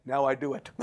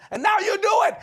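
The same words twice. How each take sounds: First: Low, understated acted reply; deadpan comeback. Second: Very high, loud acted wife; shouted accusation. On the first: Husband answering his scolding wife, low and matter-of-fact. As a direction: drop low for the punchline. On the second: Wife catching husband speaking in tongues, shouted accusation. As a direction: fling it at him, high and loud.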